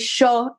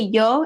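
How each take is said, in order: First: It begins with a sh sound, Argentine style. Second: It begins with a y sound.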